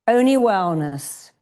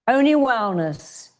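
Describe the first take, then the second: Both takes have the same delivery.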